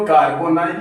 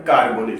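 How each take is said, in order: First: कार्बोनाइल as written, ending "-nile"; spelling pronunciation. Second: कार्बोनिल with short "-nil" ending; correct pronunciation. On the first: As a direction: say कार्बोनाइल with a long "nai" glide. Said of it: "लिखते हो कार्बोनाइल". (कार्बोनाइल, लिखावट जैसा "नाइल" वाला उच्चारण) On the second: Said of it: "लेकिन आपको pronounce करना है". (कार्बोनिल, अंत में "निल" वाला सही उच्चारण) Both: Shown as a demonstration.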